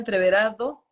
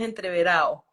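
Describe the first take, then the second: First: It uses the standard dictionary pronunciation. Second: It uses the colloquial Venezuelan plains pronunciation. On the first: "La pronunciación del diccionario es" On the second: "pronunciación de la calle, del llano, es"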